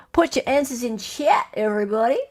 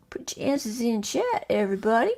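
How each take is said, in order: First: Said in the usual way. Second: Soft, whispery repeat; hushed. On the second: Pretend. Host repeats the instruction to players, hushed. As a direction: say it under your breath to the room.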